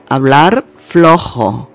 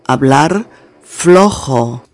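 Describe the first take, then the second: No difference in how they are said.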